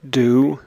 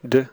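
First: The word has a full, clear vowel. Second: The word has a short, reduced vowel. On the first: "I'll read the strong and the weak form" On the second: "The weak form before consonants"

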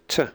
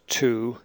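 First: The vowel is reduced to a weak schwa. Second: The word has a full, clear vowel. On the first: "then the weak form" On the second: "First the strong form"

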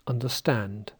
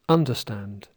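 First: The stress is on the third syllable. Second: The stress is on the first syllable. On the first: The speaker calls it right. "But listen again, it's" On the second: The speaker calls it wrong. "Icelanders might say"

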